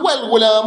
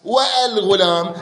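First: The article links smoothly with no glottal stop. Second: A glottal stop is pronounced before the article. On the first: The speaker calls it right. "أقول والغلام والفرس تخفيفا لكثرة الاستعمال" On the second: The speaker calls it wrong. "ما يصير أقول والفرس والغلام"

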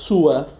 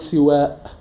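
First: The first vowel is u; the final vowel is short. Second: The first vowel is i; the final vowel is long. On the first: "ضم السين مع قصر الألف" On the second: "كسر السين مع مد الألف"

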